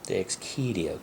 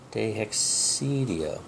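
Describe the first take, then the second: First: The C is said as a hard K sound. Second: The C is said as a soft sound. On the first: The speaker calls it right. "Key, not C" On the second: The speaker calls it wrong. "But C should never be soft"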